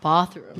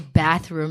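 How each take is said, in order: First: It is said with a British accent. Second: It is said with an American accent. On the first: "instead of bathroom" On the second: "I say bathroom"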